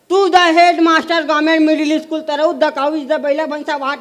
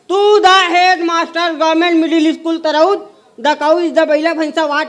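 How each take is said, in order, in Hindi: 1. वाक्य सामान्य, तेज़ गति से बोला गया है। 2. वाक्य धीरे और रुक-रुककर बोला गया है।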